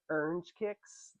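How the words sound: It is said in a Texan accent.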